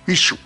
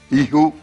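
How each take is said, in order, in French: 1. La consonne est un sh français plein. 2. La consonne est un h léger.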